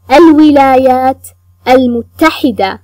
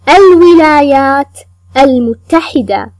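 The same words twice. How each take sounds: The two takes are said the same way.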